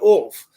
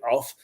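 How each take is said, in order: First: The word is said with a posh, drawn-out vowel. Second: The word is said with an ordinary vowel. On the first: This is how the royal family says it. "you say off" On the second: This is how most people say it. "you don't say off"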